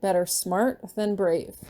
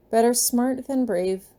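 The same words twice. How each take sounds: First: Said in the usual way. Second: Slow, careful dutiful repeat; dutiful child. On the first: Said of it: "Say it with me". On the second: Acted. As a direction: recite it back like a good kid. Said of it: "Marcus repeats dutifully".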